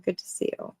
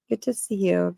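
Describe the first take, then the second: First: Soft unvoiced whisper. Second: Said in the usual way. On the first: Real, not acted. Streamer greets a viewer again, whispering. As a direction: breathe the words, no voice.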